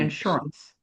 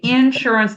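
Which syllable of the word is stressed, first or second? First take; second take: second; first. First: The stress is not on the first syllable. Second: The stress is on the first syllable. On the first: This is how it is said up north. "up here we would say insurance" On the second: This is how it is said in Texas. "that emphasis is on the first syllable"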